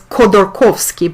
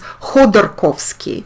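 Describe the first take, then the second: First: The name is pronounced the English way. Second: The name is pronounced the Russian way. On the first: "in English language, it sounds as" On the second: "in Russian it's"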